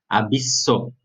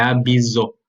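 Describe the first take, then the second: First: The middle consonant is a voiceless S sound. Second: The middle consonant is a voiced Z sound. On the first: The speaker calls it right. "sempre com som de dois S" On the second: The speaker calls it wrong. "não é abiso"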